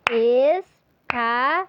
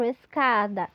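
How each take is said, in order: First: "Escada" very slow and louder, split es-ca-da; syllables clapped. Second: Said in the usual way. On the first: Shown as a demonstration. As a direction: spell out "Escada" syllable by syllable, loud. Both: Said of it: "aquele recurso das palminhas".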